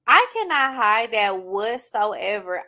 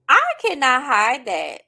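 First: "I cannot hide that whatsoever" drawn out very slowly at normal pitch; slower, softer restatement. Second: "I cannot hide that" said slow, loud and high, leaning on "I"; slow emphatic. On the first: Restating to listeners that she can't hide tears, drawn-out and calm. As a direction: let "I cannot hide that whatsoever" settle, slow and even. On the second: Telling listeners she can't hide her tears, slow and loud. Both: Real, not acted.

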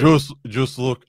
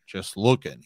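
First: Slow, higher, put-on Hagrid grunt. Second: A lightly voiced gruff Hagrid, shifty; barely changed giant's voice, a touch shifty. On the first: Cohost retrying the line as an exaggerated Hagrid. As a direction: drag it out as a hammed-up Hagrid. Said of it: "I can't do the Hagrid voice". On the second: Podcaster reading Hagrid's line, lightly voiced shifty Hagrid. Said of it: "that's my Hagrid voice".

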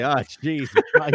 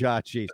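First: Said in the usual way. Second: "Oh, jeez" sighed low and soft, mock dismay; a low, deflated "Oh, jeez" of dismay; huge groaned oh jeez. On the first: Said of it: "let out a huge". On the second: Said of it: "He would probably let out a huge".

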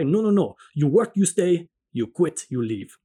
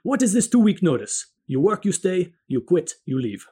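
First: Sharp, louder retort in an imitated Italian accent. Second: Loud, emphatic imitated Italian accent, higher; thick Italian accent. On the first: Manager refusing the busboy's offer to stay, sharp Italian accent. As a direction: cut him off sharply in a thick Italian accent. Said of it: "met again with the sharp reply". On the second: Restaurant manager to busboy handing in notice, loud emphatic Italian accent. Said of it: "In his thick Italian accent, he emphatically exclaimed".

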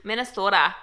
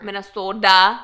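First: Lightly done Minnesota accent on "Minnesota". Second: Loud "Minnesota" with a D for the T; exaggerated Minnesota accent on "Minnesota"; Minnesota accent, hard D. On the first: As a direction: say "Minnesota" like a local. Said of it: "I can do a Minnesota accent". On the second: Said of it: "hit your D's a little bit more". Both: Shown as a demonstration.

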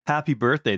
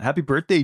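First: Lightly hammed bad French accent; horrible French accent. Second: Said in the usual way. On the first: Birthday wish to a listener, intentionally horrible French accent. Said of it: "my intentionally horrible French accent".

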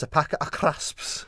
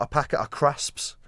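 First: "crisps" high and loud with trilled Scottish R; rolled R. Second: "crisps" said loud without a trilled R; unrolled R. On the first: Showing pal's Scottish way, "crisps" with rolled R. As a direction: roll the R hard in "a packet of crisps". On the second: Showing the wrong way, "crisps" with R unrolled. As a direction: give "a packet of crisps" an untrilled R. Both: Shown as a demonstration. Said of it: "You gotta roll your R's".

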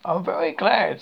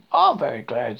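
First: Higher, louder, pleased delivery; happy. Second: Louder, stressed, pleased agreement; happy. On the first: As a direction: say it gladly, with some lift. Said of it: "said Pooh happily". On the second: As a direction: chime in firmly and gladly. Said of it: "said Piglet happily". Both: A narrator's reading.

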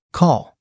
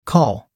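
First: Quick firm announcement. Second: Said in the usual way. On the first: A narrator's reading. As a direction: call it out at once, a bit higher. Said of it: "Sophie announced immediately".

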